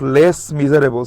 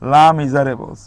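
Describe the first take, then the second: First: The first word ends with an s sound. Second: The first word is a bare la sound. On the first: The speaker calls it wrong. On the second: The speaker calls it right.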